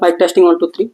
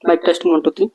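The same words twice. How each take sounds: First: Background noise is removed behind the voice. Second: Background noise is heard behind the voice. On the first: "noise cancellation mode ఆన్లో ఉండగా" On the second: "noise cancellation mode ఆఫ్లో ఉండగా record చేస్తున్న audio"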